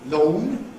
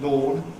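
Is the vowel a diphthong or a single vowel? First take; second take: diphthong; single vowel. First: The vowel glides as a diphthong. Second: The vowel is a single close vowel. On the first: "in Broad Cockney, a kind of diphthong" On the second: "a rather close monophthong"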